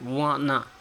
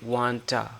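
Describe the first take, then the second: First: The words blend into one word without T. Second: The words blend into one word, T sound kept. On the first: "we also skip the T, so it becomes like wanna" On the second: "we say wanta"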